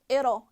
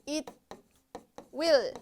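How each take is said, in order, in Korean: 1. 두 단어가 붙어서 한 음절로 발음됩니다. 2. 두 단어 모두 온전히, 따로따로 발음합니다. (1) "약간 it'll it'll 이렇게 발음해 주시면 돼요" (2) "이렇게 하지 마시고"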